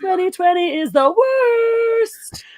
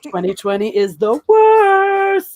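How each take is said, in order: First: It is said in a put-on character voice. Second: It is said in the speaker's normal voice. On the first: "There we go" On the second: "I can't even do it with his voice right now"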